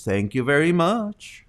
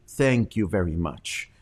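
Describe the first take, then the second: First: Upward twang. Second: Downward twang. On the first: Anchor thanks a correspondent about crazy news: upward mock twang. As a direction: lift the thanks up with a doubtful lilt. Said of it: "her twang goes up". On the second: Anchor thanks a guest she agrees with: downward mock twang. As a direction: let the thanks fall down in sympathy. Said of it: "her twang is kinda downward". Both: Retold or imitated.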